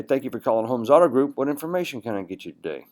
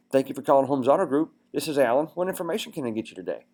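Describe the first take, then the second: First: Imitating a greeting that sinks on "What information can I get you today"; voice dropping at end. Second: Raised pitch, voice kept up through "What information can I get you today"; excited, upbeat greeting. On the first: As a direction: let "get you today" fall away. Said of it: "Their voice went down at the end". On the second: Shown as a demonstration. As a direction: greet the caller like you're excited to help. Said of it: "Like you're excited about getting them".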